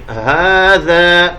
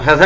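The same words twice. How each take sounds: First: ھذا with the ha drawn out; long ha, very slow. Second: ھذا said quickly without the long ha; wrong short ha. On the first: Teacher to students, modelling the correct long ھذا. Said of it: "اس ہا کو تھوڑا سا ہم مد کے ساتھ پڑھیں گے". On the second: Teacher to students, showing the wrong way to say ھذا. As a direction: rattle off ھذا without stretching the ha. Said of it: "اس کو ھذا نہیں پڑھیں گے". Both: Shown as a demonstration.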